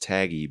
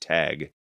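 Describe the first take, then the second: First: The name ends with an extra vowel sound. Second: The name ends on the consonant, no vowel. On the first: This is how the credits spell the name. "I always thought it was Taggy because in the credits it's T A G G I" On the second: This is the name as the books give it. "I think it's supposed to be pronounced Tag"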